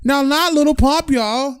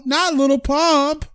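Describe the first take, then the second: First: "not" pitched high and hit hard; stress on not. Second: "Not" hit high, each word drawn out slowly; slow down and lean hard on "Not"; slow emphatic denial. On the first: Telling viewers he isn't [name], stressing "not" high. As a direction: push up on "not" to deny it. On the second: Repeating to viewers he isn't [name], slow and stressed on "Not". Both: Real, not acted.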